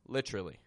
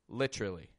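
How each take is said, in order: First: The middle is reduced, sounding like 'litra'. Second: The middle is reduced, sounding like 'litra'.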